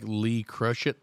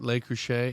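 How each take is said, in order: First: It is read as spelled, starting with 'lee'. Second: It is said the French way, starting with 'luh'. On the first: This is how the spelling looks. The speaker calls it wrong. "It looks like Lee Crushit" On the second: This is how the name is really said. The speaker calls it right. "I think that's how you say it"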